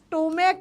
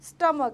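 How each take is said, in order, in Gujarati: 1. પહેલો સ્વર 'oh' જેવો સંભળાય છે. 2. પહેલો સ્વર 'uh' જેવો સંભળાય છે. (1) "આ સ્ટોમેક નથી" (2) "આ છે સ્ટમક અને બોલાય છે સ્ટમક"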